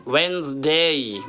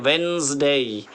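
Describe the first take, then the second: No difference in how they are said.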